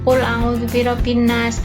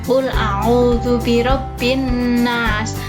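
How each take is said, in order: First: The Arabic letters are articulated loosely and imprecisely. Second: Each Arabic letter is articulated carefully and precisely. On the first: The speaker calls it wrong. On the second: The speaker calls it right. "seperti yang tadi Bu Guru contoh"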